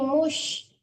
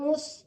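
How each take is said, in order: First: The syllable ends with a sh sound. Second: The syllable ends with a plain s sound. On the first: The speaker calls it right. "Tapi mush" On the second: The speaker calls it wrong. "Jangan mus, jangan mus ya, jangan sin ya"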